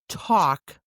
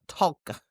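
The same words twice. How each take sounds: First: The L sound is silent. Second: The L sound is pronounced. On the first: The speaker calls it right. "You see it, but you don't say it" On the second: The speaker calls it wrong. "not talk"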